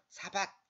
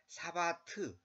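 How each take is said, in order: First: It is said with two syllables, ending in a consonant. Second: It is said with three syllables, ending in a vowel. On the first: "요걸 이제 줄여서 사밧" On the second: "사바트인데"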